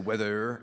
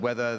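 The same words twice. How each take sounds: First: The final R is pronounced, northern style. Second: The final R is dropped.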